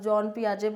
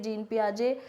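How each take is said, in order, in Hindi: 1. पहला नाम 'jon' जैसा सुनाई देता है। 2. पहला नाम 'jeen' जैसा सुनाई देता है। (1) "इनकी जो स्विस लैंग्वेज के अकॉर्डिंग जॉन पियाजे बोला जाता है" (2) "हमें थोड़ा इजी लगता है जीन पियाजे बोलने में"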